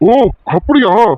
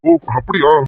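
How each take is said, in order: First: It sounds exaggerated, with loud shocked surprise. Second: It sounds flat and casual, without surprise. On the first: The news is a great shock. "ஐயோ டேய் அதிர்ச்சியா இருக்கேடா" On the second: The news seems to matter little. "என்னடா ஓ அப்படியான்னு கேக்குற?"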